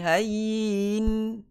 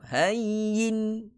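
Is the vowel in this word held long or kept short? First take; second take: long; short. First: The vowel is drawn out long. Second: The vowel is kept short and crisp. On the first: The speaker calls it wrong. "Tidak boleh hayyin. Ha, dia tak boleh lanjut" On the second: The speaker calls it right. "Hayyin sharp"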